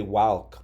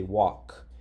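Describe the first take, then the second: First: Walk read with the short A of cat, as the letters suggest; rule-based misreading. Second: Walk said as wok, with a silent L; correct pronunciation. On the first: Teacher sounding out walk the wrong way by the spelling rules. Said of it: "here it's spelled with an A". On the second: Teacher giving students the real sound of walk. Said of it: "but we don't say". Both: Shown as a demonstration.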